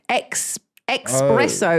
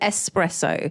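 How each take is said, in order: First: The word begins with an 'ex' sound. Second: The word begins with an 'ess' sound. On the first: The speaker calls it wrong. "people say ex" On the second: The speaker calls it right. "instead of espresso"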